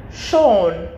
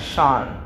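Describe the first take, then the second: First: "Sean" with a rounded "oh" vowel, like "Shawn"; correct name pronunciation. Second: "Sean" with an open "ah" vowel, like "Shahn"; mispronounced name. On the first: Shown as a demonstration. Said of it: "I said your name correctly". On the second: Retold or imitated. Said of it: "seems to think I pronounce his name as".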